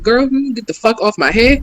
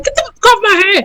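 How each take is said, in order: First: Lightly imitated Black woman's telling-off; a hint of Black women's sassy talk. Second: High, quick mock protest; retold indignant woman. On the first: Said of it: "that's really how black women talk". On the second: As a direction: imitate her complaint in a raised pitch. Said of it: "She was like".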